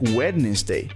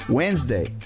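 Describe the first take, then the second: First: The word is said with three syllables. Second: The word is said with two syllables. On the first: The speaker calls it wrong. "If you read it the way it's spelled, it would sound like" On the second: The speaker calls it right. "it's just two syllables"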